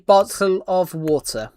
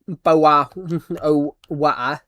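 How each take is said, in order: First: The T sounds are clearly pronounced. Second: The T sounds are dropped. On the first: The speaker calls it right. "We actually say it with the T" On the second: The speaker calls it wrong. "We don't actually say boa o wa"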